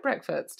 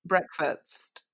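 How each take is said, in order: First: Breakfast said properly, S before T; Breakfast with a clean -fast ending; corrected breakfast. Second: Breakfast with the T before the S; breakfast said as brekfatst; mispronounced breakfast. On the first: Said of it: "Is that right?". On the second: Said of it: "I put the T before the S". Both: Shown as a demonstration.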